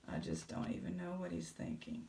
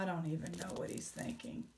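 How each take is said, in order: First: Much lower, softer mock voice; deep caption voice for Billy Bob. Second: Said in the usual way. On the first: Vlogger voices Billy Bob's caption in a deep low voice. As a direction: voice the thoughts in a deep low rumble. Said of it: "if you could write a caption for him". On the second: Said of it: "caption for him".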